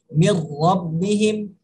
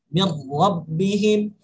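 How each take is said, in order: The two takes are said the same way.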